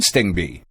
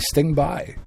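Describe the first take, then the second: First: The name ends with a 'bee' sound. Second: The name ends with a 'by' sound. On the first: This is how others say it. "I've always heard Sting B" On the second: This is how the spelling reads. "I look at it quickly and I see Sting by"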